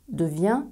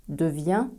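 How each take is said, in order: Both takes have the same delivery.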